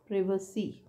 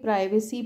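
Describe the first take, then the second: First: The first syllable has a short 'i' vowel. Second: The first syllable has a long 'eye' vowel. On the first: The speaker calls it right. "Correct sound is प्रिवेसी" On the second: The speaker calls it wrong. "हम इसको generally प्राइवेसी पढ़ते थे"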